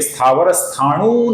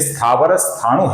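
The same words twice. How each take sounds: First: The final vowel of the second word is long. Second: The final vowel of the second word is short. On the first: The speaker calls it wrong. "ये स्थावर स्थाणु नहीं है" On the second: The speaker calls it right. "ये स्थावर स्थाणु है, ह्रस्व है"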